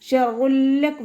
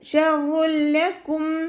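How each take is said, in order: First: The merged sound carries a nasal hum. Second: The merged sound has no nasal hum. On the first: The speaker calls it wrong. "അവിടെ ഒന്ന കൊടുത്തിട്ട് ഓതരുത്" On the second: The speaker calls it right. "അതുപോലെ ഓതുക"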